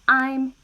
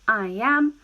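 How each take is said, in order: First: The two words are merged into one syllable. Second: Two full words are said separately. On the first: "I naturally will say I'm" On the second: "I am becomes I'm"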